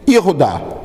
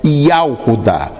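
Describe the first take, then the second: First: The first vowel is a short 'e' sound. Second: The first vowel is an open 'a' sound. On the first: This is the form used in Israel today. The speaker calls it wrong. "hoje em Israel se pronuncia Yehudá" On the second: This is the older form, no longer used in Israel today. The speaker calls it right. "hoje já não se pronuncia em Israel Yahudá"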